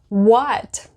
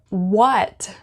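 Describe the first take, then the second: The two takes are said the same way.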